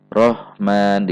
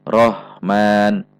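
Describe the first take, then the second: Both takes have the same delivery.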